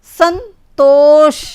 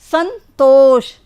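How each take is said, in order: First: संतोष stretched slowly, dental स then a hissed final ष; संतोष drawn out, opening स and closing ष both clear; slow sound demo. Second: संतोष again slow, final ष held and falling; संतोष with the last ष lingering as it falls; second slow demo. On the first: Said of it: "जब स बोला तो कैसे आवाज़ आई". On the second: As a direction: draw out the ष at the end of संतोष. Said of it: "आखिरी में श बोला तो कैसे आवाज़ आई". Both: Shown as a demonstration.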